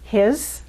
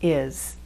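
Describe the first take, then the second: First: The word is said in full with h. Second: The word is reduced, the h dropped. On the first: "Instead of his" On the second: "the pronunciation will be is"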